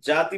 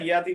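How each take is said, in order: First: The word begins with a j sound. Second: The word begins with a y sound. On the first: The speaker calls it wrong. "জাতি বলবে না" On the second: The speaker calls it right. "ইয়াতি বললাম না"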